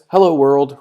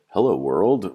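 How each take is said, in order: First: It is said with more excitement. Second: It is said as a confused question. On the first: The speaker is excited. "There's a little bit more excitement" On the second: The speaker is unsure why this is happening. "Like I'm confused why we're doing this"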